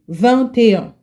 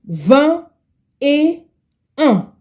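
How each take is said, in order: First: The phrase is said at normal speed. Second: The phrase is said slowly. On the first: "When you want to pronounce it correctly" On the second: "To pronounce it slowly"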